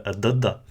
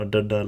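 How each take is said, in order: First: Dadda with the tongue against the upper teeth; soft dental D. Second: Dadda with the tongue curled back, hard; retroflex D. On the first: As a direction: say dadda softly, not retroflex. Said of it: "therefore this will be". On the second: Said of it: "be careful not to say dadda". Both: Shown as a demonstration.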